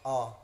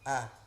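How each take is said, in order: First: The vowel is rounded, sounding like o. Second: The vowel is open and spread, sounding like a. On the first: The speaker calls it wrong. "Jangan o. Jangan monyong ya" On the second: The speaker calls it right. "tapi agak ditarik teman-teman"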